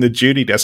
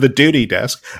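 First: Duty begins with a J sound. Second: Duty begins with a plain D sound. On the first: This way sounded more Australian. "I started saying Judy, like with a J" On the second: This way made people laugh. "instead of the duty desk"

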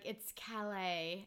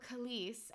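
First: It is pronounced the French way. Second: It is pronounced the English way. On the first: The speaker calls it right. "my boyfriend's like, it's Calais" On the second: The speaker calls it wrong. "I either like pronounce it like you would in English or Spanish"

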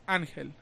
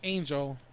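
First: The name is said with Spanish sounds. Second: The name is said with English sounds. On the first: The speaker calls it right. "It's Angel" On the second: The speaker calls it wrong. "my name isn't Angel"

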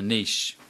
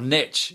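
First: The word has the speaker's own non-American pronunciation. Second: The word has the American pronunciation.

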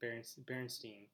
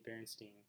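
First: The name is said at a slower pace. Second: The name is said at a quick pace.

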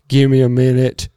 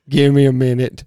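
No difference in how they are said.

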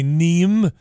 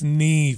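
First: The name is said with an American mispronunciation. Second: The name is said with the Irish pronunciation. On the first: The speaker calls it wrong. "the Americans would usually say Niamh" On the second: The speaker calls it right. "it's Niamh"

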